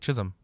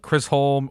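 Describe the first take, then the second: First: The first syllable is said without an R sound. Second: The first syllable is said with an R sound. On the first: The speaker calls it right. "it literally says Chiz. Um, like Chisholm" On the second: The speaker calls it wrong. "which I have no idea how you get Chris out of that. There isn't an R in Chisholm"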